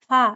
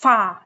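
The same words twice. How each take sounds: First: The sound is said too softly and weakly. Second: The sound is said too harshly and forcefully. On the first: "ज्यादा नरमी से भी नहीं पढ़ना के फा फा ऐसे भी नहीं पढ़ना" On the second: "ज्यादा सख्ती से भी इसकी अदायगी नहीं करनी, फा ऐसे भी नहीं पढ़ना"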